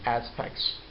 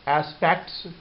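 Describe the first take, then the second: First: The t sound is dropped. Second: The t sound is pronounced.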